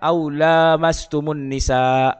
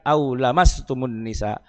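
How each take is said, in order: First: The vowel after l is long. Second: The vowel after l is short. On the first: "dibaca panjang" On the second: "jauh berbeda"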